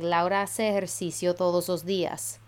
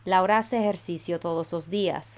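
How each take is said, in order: Both takes have the same delivery.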